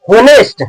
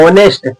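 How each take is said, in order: First: होनेस्ट with a pronounced h, pitched higher; wrong "honest", H sounded. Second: ऑनेस्ट starting on the vowel, no h; correct "honest", silent H. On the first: Teacher demonstrating a mistake, higher होनेस्ट with audible h. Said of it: "बिल्कुल गलत". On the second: Teacher giving the right reading, ऑनेस्ट with silent h. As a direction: drop the h and open on "o" in ऑनेस्ट. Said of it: "ऑनेस्ट लिखा गया है". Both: Shown as a demonstration.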